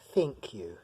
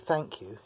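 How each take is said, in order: First: An American accent with the vowel raised toward 'i'. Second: A British accent with an open 'a' vowel. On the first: "L A Americans, say think you" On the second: "when we say thank you in English"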